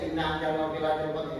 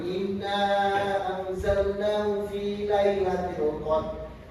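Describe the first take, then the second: First: The final vowel of inna is kept short. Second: The final vowel of inna is held long. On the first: "Kalau bacanya turun aja"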